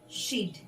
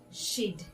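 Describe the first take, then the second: First: The words are shortened into one syllable. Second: The words are shortened into one syllable.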